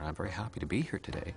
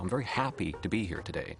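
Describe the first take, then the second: First: Canadian pattern, drifting gently up at the end. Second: American pattern, falling hard at the end.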